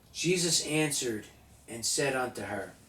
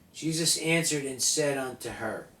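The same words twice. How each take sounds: Both takes have the same delivery.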